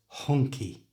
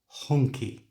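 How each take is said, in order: First: It starts whispered, then the voice comes in. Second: It starts whispered, then the voice comes in.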